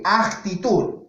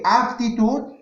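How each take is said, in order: First: "actitud" with an audible K sound closing the first syllable; "actitud", slow, with the hard C clearly marked. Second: "aptitud" with an audible P closing the first syllable; "aptitud", P sound clearly marked, pitched up. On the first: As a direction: articulate the C in "actitud", slowly, ak-ti-tud. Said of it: "con C". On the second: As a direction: articulate the P in "aptitud", ap-ti-tud. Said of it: "con P". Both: Shown as a demonstration.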